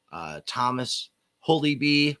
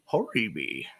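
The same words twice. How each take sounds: First: Said in the usual way. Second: Put-on "Holy Bee" said as "Hori Bee" in a light Japanese accent, the l turned to r. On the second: Host imitates a friend's phone greeting, light Japanese accent. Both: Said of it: "he answers in a Japanese accent".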